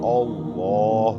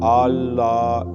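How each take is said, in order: First: The long vowel is said with rounded lips. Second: The long vowel is said with unrounded lips. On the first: The speaker calls it right. "मुंह गोल करके पढ़ना" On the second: The speaker calls it wrong. "ऐसे नहीं पढ़ना"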